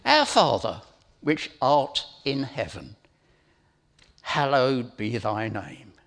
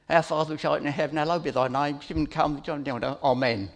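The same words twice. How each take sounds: First: Slow, each phrase weighed with pauses; slow deliberate reading. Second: Fast, run-together gabble of the prayer; rote recital. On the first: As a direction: read it slowly, meaning every word. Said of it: "let's have a look at this". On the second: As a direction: rattle it off like a times table. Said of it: "recite it as if it was rote". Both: Shown as a demonstration.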